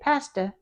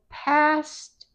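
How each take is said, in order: First: An extra vowel follows the t. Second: The word ends cleanly on the t. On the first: The speaker calls it wrong. "we can't say pasta" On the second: The speaker calls it right. "now we just stop"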